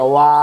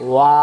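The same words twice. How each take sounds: No difference in how they are said.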